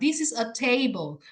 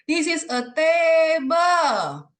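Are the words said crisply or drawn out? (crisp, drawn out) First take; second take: crisp; drawn out. First: The words are said crisply at normal length. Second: The words are stretched out and drawn long. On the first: The speaker calls it right. "harus jelas, bener-bener itu yang kayak kita misalnya bilang" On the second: The speaker calls it wrong. "jangan begini ya, saya banyak menemukan guru-guru ngajarnya gini ... Jadi dipanjang-panjangin, no"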